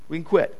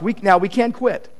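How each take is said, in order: First: "We can quit" repeated much softer; quiet repeat of "We can quit"; soft echo. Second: Said in the usual way. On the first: Shown as a demonstration. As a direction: drop the voice and let "quit" land quietly.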